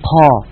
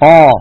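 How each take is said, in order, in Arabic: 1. يُنطق الحرف مع خروج هواء مصحوب بنَفَس. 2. يُحبس الحرف مع عدم خروج الهواء. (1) "ولا نقول قا" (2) "لا بد من حبس جريان الهواء"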